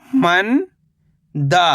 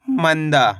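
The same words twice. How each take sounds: First: मंदा as long rising "man", pause, "daa"; split syllables. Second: Said in the usual way. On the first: Shown as a demonstration. Teacher breaking down मंदा for learners, split syllables. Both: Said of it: "तो मिलके बन जाएगा".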